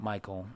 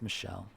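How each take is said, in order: First: The name is said with a hard k sound. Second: The name is said with a soft sh sound. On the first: The speaker calls it wrong. "it's not Michael" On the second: The speaker calls it right. "it's Michelle"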